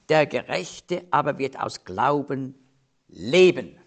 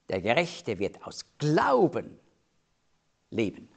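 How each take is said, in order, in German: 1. Das Wort leben hat die Hauptbetonung. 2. Das Wort Glauben hat die Hauptbetonung. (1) "hier geht es um das Leben als Gläubiger" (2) "mit der Betonung"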